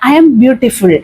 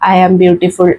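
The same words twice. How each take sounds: First: It is said warmly, with heartfelt emotion. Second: It is said flatly, with no emotion. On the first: The words are said as if already true. The speaker calls it right. "നമ്മൾ യഥാർത്ഥത്തിൽ അങ്ങനെയാണ് എന്ന് വന്നിട്ടുള്ളത്" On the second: The words are recited without believing them. The speaker calls it wrong. "പ്രത്യേകിച്ച് ഒരു ഫീലും ഇല്ലാതെ ... ഇങ്ങനെ പറയരുത്"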